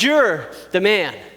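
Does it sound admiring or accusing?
accusing. It sounds like a serious accusation.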